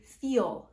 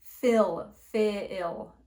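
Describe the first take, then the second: First: "feel" said slowly with a long clear ee; long ee vowel. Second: "fill, feel." with a short lax i, "fill" louder; Whitney's fill vowel. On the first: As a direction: stretch the ee in "feel". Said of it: "I say feel". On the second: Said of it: "she's saying". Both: Shown as a demonstration.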